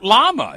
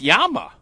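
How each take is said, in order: First: The word begins with an L sound. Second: The word begins with a Y sound. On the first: The speaker calls it wrong. "It's not llama" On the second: The speaker calls it right. "it's Yama"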